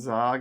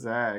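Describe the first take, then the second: First: The vowel sounds like the 'o' in 'log'. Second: The vowel sounds like the 'a' in 'bag'. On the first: The speaker calls it wrong. "if you're saying Zog instead of Zag" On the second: The speaker calls it right. "You gotta say the Zag"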